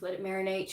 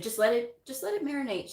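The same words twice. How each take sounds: First: Said in the usual way. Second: Gentle advice. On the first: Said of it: "She goes". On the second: Retold or imitated. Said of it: "she said".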